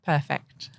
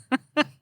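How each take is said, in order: First: Said in the usual way. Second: Higher, brighter second "Perfect."; a higher, delighted "Perfect."; delighted repeat. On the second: Real, not acted. Host repeats word, delighted.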